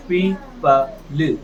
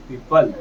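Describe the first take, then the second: First: "पी प ल" split into slow separate syllables; sounded out slowly. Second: Said in the usual way. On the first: Shown as a demonstration. Teacher sounds out "पी प ल" slowly for the class. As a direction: blend it slowly, piece by piece. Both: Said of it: "तो क्या बना?".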